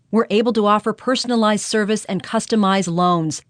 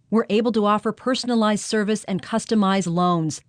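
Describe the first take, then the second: Both takes have the same delivery.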